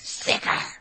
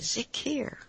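First: The last syllable sounds like 'car'. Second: The last syllable sounds like 'ear'. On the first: The speaker calls it wrong. "Maybe it's instead of car" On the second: The speaker calls it right. "it might be ear, like zikir"

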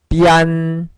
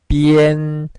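First: The word ends with an 'an' sound. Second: The word ends with an 'en' sound. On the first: The speaker calls it wrong. "이런 식으로 많이 읽었습니다" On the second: The speaker calls it right. "IAN은 EN 이렇게 읽으셔야 됩니다"

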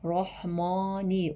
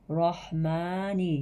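First: The vowel is a thick, back a sound. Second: The vowel is a thin, front a sound. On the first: The speaker calls it wrong. "kalın a sesi vermememiz gerekti. Mesela şu şekilde rahmani olmaz" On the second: The speaker calls it right. "yani a demedim, e de demedim. İnce a'yı kullandık"

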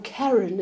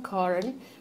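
First: The name is said the American way. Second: The name is said in a non-American way.

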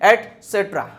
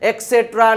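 First: The word begins with an 'ets' sound. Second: The word begins with an 'eks' sound. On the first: The speaker calls it right. "સાચો ઉચ્ચાર થાય છે એટસેટ્રા" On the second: The speaker calls it wrong. "એક્સેટ્રા ને એવું ન વાંચતા"

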